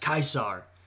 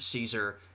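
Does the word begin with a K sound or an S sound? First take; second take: K sound; S sound. First: It begins with a hard K sound. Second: It begins with a soft S sound. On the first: This is how the ancient Romans said it. The speaker calls it right. "they actually pronounced it as Caesar, more close to the, you know, the German pronunciation of Kaiser" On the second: This is the common modern way to say it. The speaker calls it wrong. "But we pronounce it Caesar"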